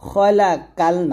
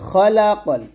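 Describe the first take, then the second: First: The vowel in the last syllable is long. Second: The vowel in the last syllable is short. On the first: The speaker calls it wrong. "খলা কাল না" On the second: The speaker calls it right. "কল বলতে হবে"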